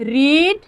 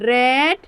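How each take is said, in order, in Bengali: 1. স্বরধ্বনিটি দীর্ঘ 'ee' ধ্বনি। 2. স্বরধ্বনিটি হ্রস্ব 'e' ধ্বনি। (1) "ফার্স্ট ফর্মে রিড বলি" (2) "সেকেন্ড ফর্মে রেড"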